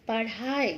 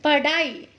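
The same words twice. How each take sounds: First: पढ़ाई with flapped aspirated rh, pa-rhaai; correct पढ़ाई. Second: पढ़ाई with a hard d, pa-daai; mispronounced पढ़ाई. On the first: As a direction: flap the rh softly in पढ़ाई. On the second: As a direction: use an unaspirated d in पढ़ाई. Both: Shown as a demonstration. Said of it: "जिनका हम गलत उच्चारण".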